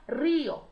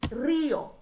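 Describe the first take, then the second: First: The stress is on the first syllable. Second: The same.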